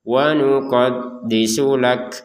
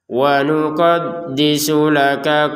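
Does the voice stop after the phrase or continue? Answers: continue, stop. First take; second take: stop; continue. First: The phrase ends with a full stop. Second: The phrase runs on into the next words. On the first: "Berhenti nggak apa-apa seperti barusan" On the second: "yang barusan kita nyambung"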